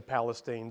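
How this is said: It is said with an East Texas pronunciation.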